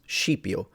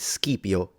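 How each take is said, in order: First: The word begins with an sh sound. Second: The word begins with an sk sound. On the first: This is the later Italianate pronunciation. "but then that becomes Scipio" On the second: This is the Classical Latin pronunciation. "the S C was a sk"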